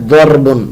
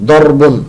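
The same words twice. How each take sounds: Both takes have the same delivery.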